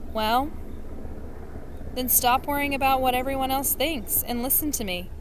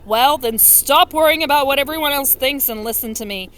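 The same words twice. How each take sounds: First: It is read in a plain, ordinary voice. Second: It is read in a put-on, mean voice. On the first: The speaker calls it wrong. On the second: The speaker calls it right.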